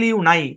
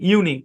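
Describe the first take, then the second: First: The second syllable sounds like 'nye'. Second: The second syllable sounds like 'nee'. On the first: The speaker calls it wrong. "হওয়ার কথা ছিল ইউ নাই, দরকার নেই" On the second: The speaker calls it right. "এটা ইউনি"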